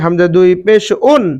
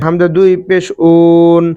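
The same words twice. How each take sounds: First: The phrase is said quickly. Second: The phrase is said slowly. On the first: The speaker calls it right. "তানবিনের উচ্চারণও তাড়াতাড়ি করবেন। বলতে হবে" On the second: The speaker calls it wrong. "না এভাবে বললে হবে না"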